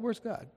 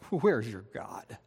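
First: It is said as a casual, passing question. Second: It is said as a mocking taunt.

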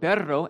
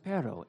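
First: The r in the middle is trilled. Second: The r in the middle is not trilled. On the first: The speaker calls it right. "there's a single R and there's a double R" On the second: The speaker calls it wrong. "a native English speaker just can't trill those R's"

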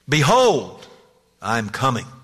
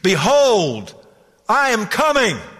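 First: It is said louder and more emphatically. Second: It is thundered out at full volume.

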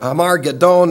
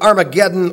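First: The word has a Greek-style pronunciation. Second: The word has its usual English pronunciation.

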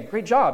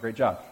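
First: The words sound warm and truly sincere. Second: The words sound mocking and clearly sarcastic. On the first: The speaker is truly praising someone. "in a way that is sincere" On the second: The speaker is making fun of someone. "if you're making fun of them"

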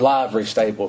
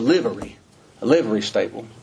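First: The words are pronounced sloppily and reduced. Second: The words are pronounced carefully and fully. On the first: The speaker calls it wrong. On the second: The speaker calls it right.

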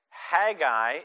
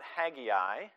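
First: The name is said without an extra I sound. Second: The name is said with an extra I sound. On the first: The speaker calls it right. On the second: The speaker calls it wrong. "it's not Haggai. Don't insert an extra I"

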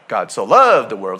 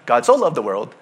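First: The sentence is said with strong, intense emphasis. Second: The sentence is said flatly, without emphasis. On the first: The love of God is very intense. The speaker calls it right. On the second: It is just a simple love. The speaker calls it wrong. "It's not"

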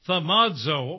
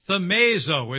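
First: The a vowels have a Greek-style sound. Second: The a vowels have an English-style sound.

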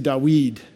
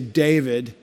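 First: The stress is on the last syllable. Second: The stress is on the first syllable. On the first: This is the Hebrew way of saying it. "they would say Dawid ... that last syllable usually gets the accent" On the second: This is the English way of saying it. "We put accents on the first syllable. We would say David"

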